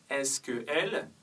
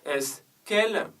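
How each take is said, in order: First: The vowel of que is fully pronounced. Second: The vowel of que is dropped and linked. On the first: The speaker calls it wrong. "on ne dit pas" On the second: The speaker calls it right. "on dit"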